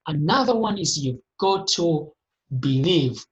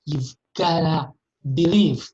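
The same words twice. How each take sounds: First: Said in the usual way. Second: Firm slow push on believe; slow emphatic believe. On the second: Shown as a demonstration. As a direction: land the word believe hard, slowly.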